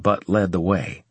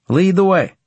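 First: Said in the usual way. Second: Resolute. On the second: Acted. McGill agrees to follow guard.

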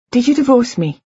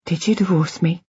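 First: Higher-pitched, insistent question; pressing him, voice raised in pitch; urgent demand. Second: Said in the usual way. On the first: A narrator's reading. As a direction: demand an answer, pitch jumping up. Question repeated, now demanding answer.

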